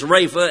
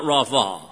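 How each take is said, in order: First: Rapha said with a long "ay", RAY-fa; scholar's pronunciation of Rapha. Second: Rapha said with an "aw" first vowel, RAW-fah; rejected pronunciation of Rapha. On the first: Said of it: "says it's Rapha". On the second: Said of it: "it's not Rapha". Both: Shown as a demonstration.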